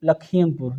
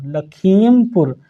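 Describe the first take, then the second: First: Said in the usual way. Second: Slow dictation. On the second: Shown as a demonstration. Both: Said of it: "teacher dictates district name".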